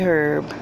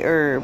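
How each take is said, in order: First: The word begins with an audible h sound. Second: The word begins with no h sound. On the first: "some say herb" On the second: "I've always been taught to say herb, silent H"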